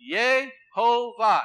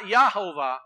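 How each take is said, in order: First: The first syllable has an 'eh' vowel. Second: The first syllable has an 'ah' vowel. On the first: The speaker calls it right. "Very important" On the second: The speaker calls it wrong. "Not Yahovah"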